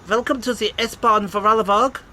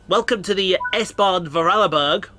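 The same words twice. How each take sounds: First: It is said in a put-on German accent. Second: It is said in the speaker's normal accent.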